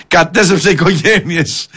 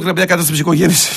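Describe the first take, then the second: First: «Κατέστρεψε οικογένειες» said slowly, each word drawn out; slow mocking repeat. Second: Said in the usual way. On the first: Repeating the TikTok claim to ridicule it, slow and sarcastic.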